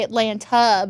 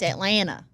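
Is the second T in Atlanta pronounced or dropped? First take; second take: pronounced; dropped. First: The second T is clearly pronounced. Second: The second T is dropped. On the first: It is said carefully and deliberately. "think about it, I'll say Atlanta" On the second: It is the relaxed, natural way. "But if I'm not, it's Atlanta"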